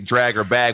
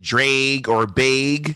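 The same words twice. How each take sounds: First: It is said without a Midwestern accent. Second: It is said with a Midwestern accent.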